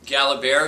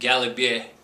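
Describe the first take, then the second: First: The name is said with an American pronunciation. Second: The name is said with a French pronunciation. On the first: "as us Americans like to say it" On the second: "in French they pronounce it"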